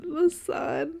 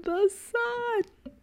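First: Said in the usual way. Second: Squealed much higher on the repeat; dreamy excitement. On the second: Real, not acted. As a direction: swoon over the sun, voice soaring. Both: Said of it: "I'm so excited".

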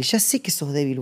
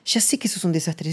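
First: Said in the usual way. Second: Breathy whisper, voice dropped away; soft unvoiced aside. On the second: Real, not acted. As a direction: let it slip out as a confiding whisper. Whispered echo of the earlier line.

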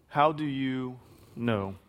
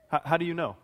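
First: "How do you know?" drawn out slowly, each word weighed; slow, searching repeat. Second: Said in the usual way. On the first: Shown as a demonstration.

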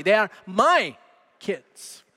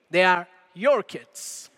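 First: Put-on "my" punched, then a drop on "kids"; emphatic "my", with "kids" falling away; stress on MY. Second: Slow quote with "your" leaned on; drawn-out, emphatic "your", falling on "kids"; stress on YOUR. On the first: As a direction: hit the word "my" hard, as a proud claim. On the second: Retold or imitated. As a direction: hand over the blame by stressing "your". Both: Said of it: "the emphasis is on the word my".

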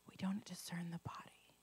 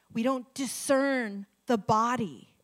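First: Breathy whisper of the verse; hushed, intimate repeat. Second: "We don't discern the body" spoken slowly, each word weighted; deliberate emphatic repeat; slow emphasis. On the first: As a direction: whisper it like a secret. Repeats scripture phrase, whispered take. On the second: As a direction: lean on every word slowly. Repeats phrase, emphatic take. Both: Shown as a demonstration.

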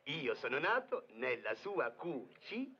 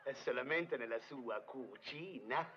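First: Slow, spelled-out hint about cucina. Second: Slow stress on solamente; correction. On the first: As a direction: lean on nato nella sua cucina. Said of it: "Voglio aiutarlo". (indizio scandito) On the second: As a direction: push solamente to correct him. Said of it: "non esageriamo". (correzione con enfasi su solamente) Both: Acted.

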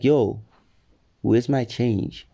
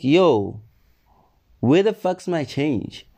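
First: Slow, even ask; easygoing, unbothered request; calm correction of the angry version. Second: Raised voice, demanding change; loud demand. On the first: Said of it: "calmly, because I'm a calm person". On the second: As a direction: snap it out, high and sharp. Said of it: "But, like, calmly". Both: Retold or imitated.

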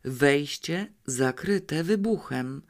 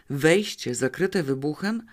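First: Dying exhale. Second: Said in the usual way. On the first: A narrator's reading. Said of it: "Wydychał to z siebie jednym ciągiem". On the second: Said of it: "Powtórzyłam".

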